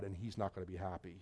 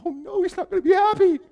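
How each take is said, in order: First: Very low, hushed ominous warning; imitating a solemn monotone, almost under the breath; grave warning. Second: Very high, squeaky echo of dread; mock panic. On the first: Church man warns visitor about the pastor, grave warning. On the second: Visitor echoes the church man's warning, mock panic. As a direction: wail it in hammed-up alarm.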